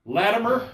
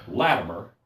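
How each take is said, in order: First: Name lifted high with a rising tune; rising call to self. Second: Name dropped low with a falling tune; falling call to self. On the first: Latimer warns himself before the king, rising call. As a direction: call your own name up like a question. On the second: Latimer warns himself before the king, low falling call. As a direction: set your own name down firmly. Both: Retold or imitated. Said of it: "I'm thinking".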